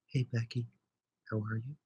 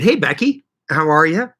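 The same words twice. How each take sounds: First: Much softer, near-hushed mock of a quiet viewer; imitating a quiet voice. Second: Said in the usual way. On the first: Shown as a demonstration. Teasing a quiet viewer by copying her, very soft. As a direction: drop right down to a tiny voice to tease her. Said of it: "You talk quieter". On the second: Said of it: "Or should I say".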